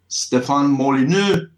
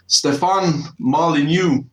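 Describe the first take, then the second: First: The name is said in French. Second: The name is said in American English.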